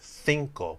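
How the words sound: The word begins with a 'th' sound. This is how it is said in Spain. "she kind of starts it with a T H sound in English"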